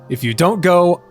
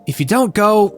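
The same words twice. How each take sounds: First: It is read in the speaker's normal voice. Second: It is read in a put-on character voice. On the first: The speaker calls it wrong. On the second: The speaker calls it right.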